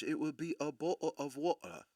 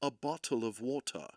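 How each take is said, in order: First: Posh English accent, a bottle of water; high English reading of bottle of water. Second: Every sound of bottle of water crisply enunciated, sharp t in bottle; crisp high English bottle of water. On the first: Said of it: "if I was to do it with high English". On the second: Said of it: "High English is enunciating". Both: Shown as a demonstration.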